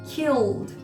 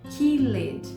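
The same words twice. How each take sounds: First: The -ed ending adds no extra syllable. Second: The -ed ending is said as an extra syllable. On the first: The speaker calls it right. "é como se o E não existisse" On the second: The speaker calls it wrong. "Não é killed"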